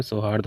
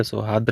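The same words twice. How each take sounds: First: सौहार्द said as sohard, with the r before da; teacher says the right सौहार्द as sohard; correct form shown. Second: सौहार्द said as sohad, with no r before da; teacher says the wrong सौहार्द as sohad; wrong form shown. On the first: Teacher gives students the correct form, sohard with a clear r. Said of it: "सौहार्द होता है". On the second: Teacher shows students the wrong spelling, sohad without the r. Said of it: "आपको दा पे रा नहीं चढ़ाना है". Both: Shown as a demonstration.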